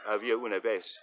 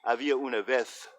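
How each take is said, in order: First: It is spoken with an American Spanish pronunciation. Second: It is spoken with a European Spanish pronunciation. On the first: "in America, we generally pronounce it" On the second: "In Europe, this letter would be pronounced"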